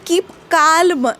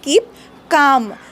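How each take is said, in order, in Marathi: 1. m च्या आधी l चा आवाज ऐकू येतो. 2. calm मध्ये l चा आवाज ऐकू येत नाही. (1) "कीप काल्म नाही" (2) "इट इज कीप काम"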